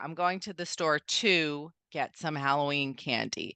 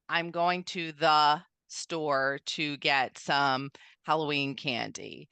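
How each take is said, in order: First: It is said smoothly without an unexpected pause. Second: It has a pause in an unexpected place.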